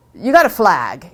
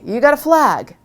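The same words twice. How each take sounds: First: You got a flag, slow and heavy, GOT stressed. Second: You got a flag, higher and louder, GOT hit; higher punched flag. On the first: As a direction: drag out GOT. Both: Shown as a demonstration.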